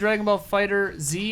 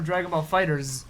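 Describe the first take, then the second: First: The title ends with a separate letter Z. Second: The title ends with a plural s sound. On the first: "are we pronouncing Dragon Ball Fighter Z" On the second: "or Dragon Ball Fighters?"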